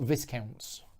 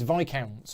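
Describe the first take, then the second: First: The middle S is pronounced. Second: The middle S is silent. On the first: The speaker calls it wrong. "not Viscounts" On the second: The speaker calls it right. "is the S silent? Yeah"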